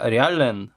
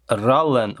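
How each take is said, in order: First: "Riallen" said as three syllables, ree-AL-len; second guess at pronunciation. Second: "Rallen" said as two syllables, RAL-len; first guess at pronunciation. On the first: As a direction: add an "ee" after the R in "Riallen". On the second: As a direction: say "Rallen" without an "ee" after the R. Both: Shown as a demonstration. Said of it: "how to pronounce it".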